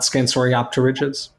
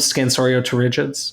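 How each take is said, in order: First: The P before the T is pronounced. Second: The P before the T is silent. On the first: The speaker calls it wrong. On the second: The speaker calls it right. "I call them"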